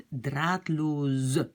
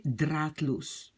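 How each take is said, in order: First: Draadloos drawn out, S voiced as Z plus E; S becomes Z. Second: Draadloos slowly, ending on a hissed S; final S. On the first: Teacher shows S between two vowels, Z sound in draadloos. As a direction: stretch draadloos slowly into a buzzing Z and final E. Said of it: "Le S entre deux voyelles devient". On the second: Teacher gives the base adjective, final S in draadloos. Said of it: "c'est juste la partie loos". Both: Shown as a demonstration.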